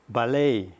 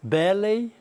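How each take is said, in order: First: Ballet stressed on the last syllable, "balLET"; American ballet. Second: Ballet stressed on the first syllable, "BAllet"; British ballet. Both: Shown as a demonstration. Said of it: "acento da palavra".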